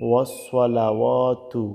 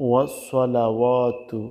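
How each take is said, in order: The two takes are said the same way.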